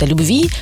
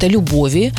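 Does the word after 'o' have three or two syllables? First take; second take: two; three. First: The word is said with two syllables. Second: The word is said with three syllables. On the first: It refers to love in general. "Есть разные варианты произношения этого слова" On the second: It is a poetic form or refers to a person's name. "Дополнительный слог"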